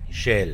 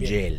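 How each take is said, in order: First: The word begins with a voiceless 'sh' sound. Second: The word begins with a voiced 'y'-like sound. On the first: The speaker calls it right. "Pero es SH, son dos consonantes que hay que pronunciarlas" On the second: The speaker calls it wrong. "no Shell. Shell sería con Y"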